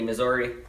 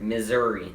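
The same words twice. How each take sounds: First: A vowel in the word sounds like an O. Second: The vowels sound normal, with no O sound. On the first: The speaker calls it wrong. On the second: The speaker calls it right.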